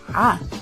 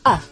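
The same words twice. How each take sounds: First: It is said with a Semitic throat sound. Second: It is said as a plain vowel. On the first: This is the Semitic sound. "the Semitic sound ah" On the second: This is how Israeli Hebrew says it. "they have to say ah"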